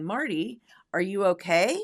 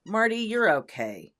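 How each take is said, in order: First: Marty, are you okay? rising at the end; rising question. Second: Marty, you're okay, falling at the end; falling statement. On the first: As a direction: ask it with the voice going up on okay. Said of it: "your voice rises". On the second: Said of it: "your voice goes down". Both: Shown as a demonstration.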